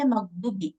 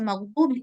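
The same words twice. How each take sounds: First: The middle vowel is cut short. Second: The middle vowel is held long. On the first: The speaker calls it wrong. "Kita nggak buat panjang" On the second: The speaker calls it right. "Kita nggak baca maghdubi"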